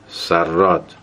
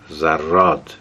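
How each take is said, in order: First: The word begins with an s sound. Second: The word begins with a z sound. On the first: This is the standard form of the word. The speaker calls it right. "سراد درسته" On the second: This is a dialect pronunciation of the word. The speaker calls it wrong. "گفت زراد غلطه"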